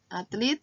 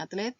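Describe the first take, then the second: First: Atlet said as "atlit"; non-standard form. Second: Atlet ending in "let"; standard form. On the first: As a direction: give Atlet an I at the end. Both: Shown as a demonstration. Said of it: "kata bakunya atlet".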